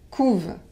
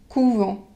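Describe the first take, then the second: First: The word ends without a nasal vowel. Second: The word ends with a nasal vowel. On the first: It is the verb: they brood. "on ne prononce pas le E N T" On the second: It is the noun: a convent. "vous devez prononcer la nasale"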